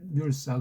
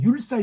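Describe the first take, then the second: First: The word begins with an l sound. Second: The word begins with a y sound. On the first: The speaker calls it right. "률사라고요" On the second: The speaker calls it wrong. "율사가 아니고"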